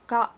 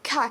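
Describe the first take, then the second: First: The k has almost no puff of air. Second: The k has a strong puff of air. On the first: The speaker calls it right. "The k sound of it is hardly there at all" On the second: The speaker calls it wrong. "in English you might say ka"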